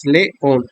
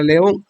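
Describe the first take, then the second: First: "león" said as two separate beats, le, ón; teacher's syllable-by-syllable "león", pausing before "ón"; split into syllables. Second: Said in the usual way. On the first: Shown as a demonstration. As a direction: break "león" between "le" and "ón" for a learner. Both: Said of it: "que se divide en dos sílabas".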